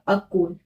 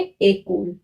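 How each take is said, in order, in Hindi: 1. पहला स्वर 'ah' जैसा बोला जाता है। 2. पहला स्वर 'ay' जैसा बोला जाता है। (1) "ई के ऊपर ना यहाँ पे एक्सेंट नहीं लगा है तो उसका प्रोनाउंसिएशन होगा" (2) "ई के ऊपर ऐसे एक्सेंट लगा देती हूँ"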